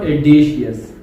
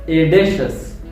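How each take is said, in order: First: The middle consonant is not an 'sh' sound. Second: The middle consonant is a clear 'sh' sound. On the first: The speaker calls it wrong. "not audacious" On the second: The speaker calls it right. "it makes sound like shush"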